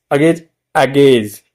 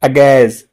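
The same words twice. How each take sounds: First: The usual Indian अगेज, ending in a j sound; common Indian pronunciation. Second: अगेज said with a clear z ending, a-gez; the correct अगेज, ending in z not j; correct pronunciation. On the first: Teacher shows students how India says it, agej. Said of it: "India में बोलते हैं". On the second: Teacher gives students the correct form, agez. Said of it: "तो सही pronunciation क्या है?". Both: Shown as a demonstration.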